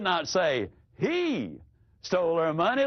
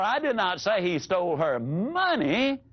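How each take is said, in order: First: The stress is on "he". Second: The stress is on "money".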